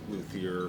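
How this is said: The word is said with an American pronunciation. "it's more the American version"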